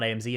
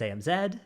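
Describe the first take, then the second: First: Z pronounced "zee", American way. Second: Z pronounced "zed", British way. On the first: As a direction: say Z to rhyme with "see". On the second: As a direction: say Z to rhyme with "bed". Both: Shown as a demonstration. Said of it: "It's not A M Z, it's A M Z".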